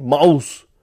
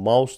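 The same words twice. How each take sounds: First: It is said harshly, in a German-style accent. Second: It is said in a plain English way.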